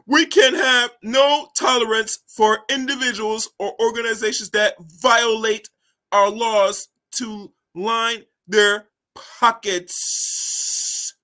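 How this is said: It is read in a put-on European voice.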